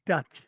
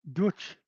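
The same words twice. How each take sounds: First: Said in the usual way. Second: "Dutch" said with an oo vowel, like Deutsch. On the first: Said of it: "Dutch, from Deutschland". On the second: Shown as a demonstration. Correcting a viewer on where the Dutch came from, Deutsch-like vowel. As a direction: say "Dutch" as "Doohtch", rising. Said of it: "from Deutschland, Germany".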